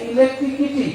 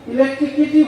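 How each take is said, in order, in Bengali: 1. শব্দটি k ধ্বনি দিয়ে বলা হয়: electrikity। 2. শব্দটি k ধ্বনি দিয়ে বলা হয়: electrikity।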